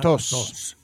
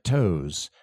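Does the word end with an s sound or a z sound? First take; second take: s; z. First: A plain vowel and a voiceless s at the end. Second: A gliding vowel and a voiced z at the end. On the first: The speaker calls it wrong. "Not tos" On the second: The speaker calls it right. "There's a diphthong in there and there's a Z sound to that S"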